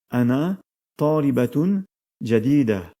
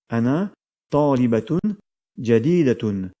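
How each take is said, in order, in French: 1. Le dernier mot se termine sans sa voyelle finale. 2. Le dernier mot garde sa terminaison finale complète.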